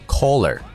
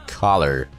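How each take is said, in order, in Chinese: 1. 第一个元音是圆唇的 'o' 音。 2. 第一个元音是开口的 'ah' 音。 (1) "请你千万不要再读成collar" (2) "在美音里面正确的读音是collar"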